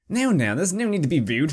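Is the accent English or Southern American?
English. It is said in an English accent.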